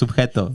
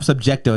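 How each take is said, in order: First: No k sound comes before the t. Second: A k sound comes before the t. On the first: The speaker calls it right. "it's subjeto" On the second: The speaker calls it wrong. "It's not subjecto"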